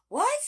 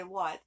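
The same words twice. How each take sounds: First: A squeaky high what, hammed-up disbelief; exaggerated shocked what. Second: Said in the usual way. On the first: Retelling the surprise gift news, in an exaggerated high shocked what. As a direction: yelp it sky-high in mock shock. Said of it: "I didn't say it like that". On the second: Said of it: "but I did say".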